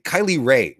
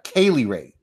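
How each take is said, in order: First: The first name begins with a 'kai' sound. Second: The first name begins with a 'kay' sound. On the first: The speaker calls it wrong. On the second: The speaker calls it right.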